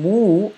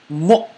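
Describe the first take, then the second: First: The vowel is a long, smooth oo sound. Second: The vowel is short and cut off by a catch. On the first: The speaker calls it wrong. "instead of saying mu" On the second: The speaker calls it right. "the letter hamza with the sakun comma makes the uh sound"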